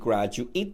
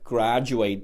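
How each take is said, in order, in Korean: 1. 마지막 음절은 'it'처럼 들려요. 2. 마지막 음절은 'eight'처럼 들려요. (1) "graduate 되면은 졸업생의 혹은 대학원의 혹은 졸업생을 의미할 수 있습니다" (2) "graduate 되면은 졸업하다"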